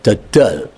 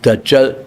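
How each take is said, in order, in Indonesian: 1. Konsonan di tengah adalah bunyi d. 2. Konsonan di tengah adalah bunyi j.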